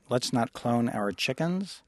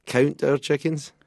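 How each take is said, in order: First: "clone" said slowly with a long o, questioning; puzzled mishearing. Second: Higher, louder correction in a Scottish accent. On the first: Interviewer echoing what she misheard, slow puzzled question. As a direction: slowly sound out "clone our chickens" as a question. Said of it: "I'm having trouble with your". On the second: Scottish singer correcting the interviewer's mishearing, raised Scottish accent. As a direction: correct "count" emphatically in Scottish. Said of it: "having trouble with your Sc-, Scottish accent". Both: Real, not acted.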